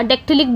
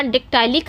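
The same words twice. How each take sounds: First: डेक्टिलिक with a short i in टि; short "ti" syllable. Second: डेक्टाइलिक with टाइ as in "tie"; long "tie" syllable. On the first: Teacher offering students the alternative, डेक्टिलिक with short "ti". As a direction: say डेक्टिलिक, middle vowel short, not "tie". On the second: Teacher offering students one pronunciation, डेक्टाइलिक with "tie". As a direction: say डेक्टाइलिक, middle vowel a full "ai". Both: Shown as a demonstration. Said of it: "या डेक्टिलिक बोल सकते हो".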